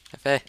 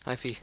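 First: "Faye" said to rhyme with day; guessing at pronunciation. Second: "Fee" said to rhyme with see, softer; second pronunciation guess. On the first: Greeting a player with an unsure name, "Faye" rhyming with day. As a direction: say "Faye" with an AY vowel. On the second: Trying a player's name another way, "Fee" with a long EE. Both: Real, not acted. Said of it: "I don't know how to pronounce your name".

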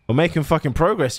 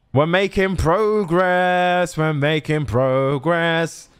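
First: Said in the usual way. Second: Slow, drawn-out sung line; long held notes, chant-like; singing. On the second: Pretend. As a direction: sing it as a little victory tune. Sings the line just spoken.

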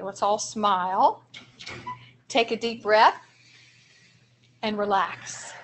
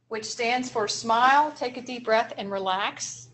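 First: Slow, with long pauses between steps; slow calming demo. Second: Said in the usual way. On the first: Shown as a demonstration. Teacher leads the room through a calming breath, slowly. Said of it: "practice this with me". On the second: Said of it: "a strategy we call star".

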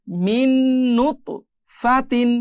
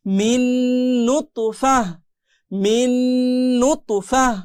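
First: Hummed n joining "মিন" to "নুতফাতিন"; merged ghunna, full ending. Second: Long hummed n, ending on breathed h in "নুতফাহ"; stopping form. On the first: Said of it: "এই নুন আর এই নুন মিলে যাবে". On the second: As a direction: drop the "তিন", close "নুতফাহ" on h. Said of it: "থামলে ফা হা জবর ফাহ". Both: Shown as a demonstration.

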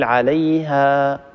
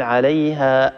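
First: عليها ending in a long vowel that fades into air, no stop; fading madd, correct. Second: عليها cut off with a hamza catch at the end; wrong glottal stop. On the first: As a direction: let the final alif of عليها thin out slowly. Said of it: "الصوت يتخامد ويقل شيئا فشيئا". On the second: Teacher showing the wrong stop, ending in a hamza catch. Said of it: "هذه الهمزة خطأ". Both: Shown as a demonstration.

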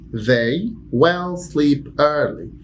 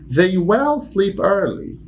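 First: Slow, even repeat; very slow repetition. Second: Slow, high, every word spaced; stressed WILL, very slow; slow model sentence. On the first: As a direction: say it again slowly for the class. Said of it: "repeated demo". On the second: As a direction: dictate it slowly for learners. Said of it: "teacher demo sentence". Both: Shown as a demonstration.

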